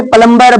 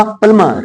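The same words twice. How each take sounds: First: प्लम्बर with the b sounded; common mispronunciation. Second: प्लमर with a silent b; correct pronunciation. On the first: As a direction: say प्लम्बर wrongly, with a clear b. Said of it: "common रूप से प्लम्बर बोला जाता है". (प्लम्बर, ब के साथ गलत उच्चारण) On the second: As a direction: say प्लमर with only m in the middle. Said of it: "इसका होगा प्लमर". (प्लमर, ब silent) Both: Shown as a demonstration.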